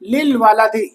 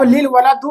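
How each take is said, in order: First: The last word ends with an 'ee' vowel. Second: The last word ends with an 'oo' vowel. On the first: The speaker calls it right. "बल्कि क्या कहेंगे, लिल वलदी" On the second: The speaker calls it wrong. "लिल वलदू नहीं कहेंगे"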